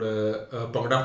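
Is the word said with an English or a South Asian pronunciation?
South Asian. It is said with a South Asian pronunciation. "because I'm pronouncing it ethnically right"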